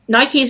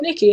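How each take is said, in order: First: The first vowel is long, like 'eye'. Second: The first vowel is short, like 'ih'. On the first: The speaker calls it right. "pronounced like the shoe" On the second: The speaker calls it wrong. "I know I said Nikki in the last one"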